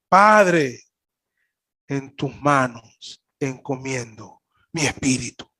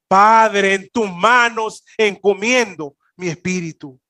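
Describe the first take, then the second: First: It is said softly. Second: It is said loudly.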